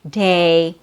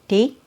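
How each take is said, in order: First: The vowel is long, with the jaw dropping. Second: The vowel is short and clipped. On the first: The speaker calls it right. "That's how you make it sound longer" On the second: The speaker calls it wrong. "don't say D"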